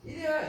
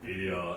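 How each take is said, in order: First: It is said in a high, childlike voice. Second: It is said in a deep, adult voice.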